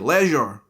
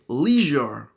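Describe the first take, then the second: First: It is said in a British accent. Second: It is said in an American accent. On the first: "A word that we would say leisure" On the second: "In America, you would say leisure"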